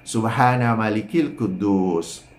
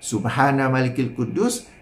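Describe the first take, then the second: First: It is said louder and slightly drawn out. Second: It is said at normal volume and length. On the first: This is the third recitation. "yang ketiga tu panjang sikit dan tinggikan suara" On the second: These are the first two recitations. "Kalau biasa"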